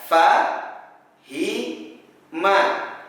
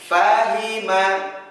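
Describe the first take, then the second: First: Each syllable is said separately with pauses. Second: The syllables flow together without any pauses.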